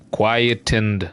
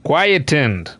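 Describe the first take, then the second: First: Quietened said slowly as kwai-uh-tend; unsure pronunciation. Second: Quietened as kwai-uh-tund; dictionary pronunciation. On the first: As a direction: sound out quietened hesitantly. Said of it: "Is that a fucking word?". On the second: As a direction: read out quietened carefully. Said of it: "it is pronounced quietened". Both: Shown as a demonstration.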